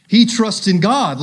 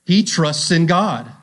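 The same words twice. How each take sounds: First: Higher, louder sneer; jeering "He trusts in God"; mocking taunt. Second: Slow, weighty reading; slow down and let it land; deliberate emphasis on "He trusts in God"; emphasized reading. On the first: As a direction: spit it out like a scoffer. Mockers quoted in reading. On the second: Shown as a demonstration. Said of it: "Listen to this".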